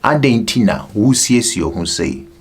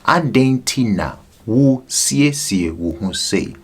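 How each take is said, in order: First: It is said at normal speed. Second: It is said slowly.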